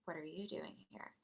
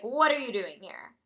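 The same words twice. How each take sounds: First: Very soft, lower-pitched question; hushed echo. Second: Demanding, at a normal speaking level; demanding question. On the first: Girl copying the narrator's question, hushed. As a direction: echo the question back, barely audible. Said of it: "she was like". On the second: Narrator confronting this girl, demanding. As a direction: put the question out firmly. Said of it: "I was like". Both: Retold or imitated.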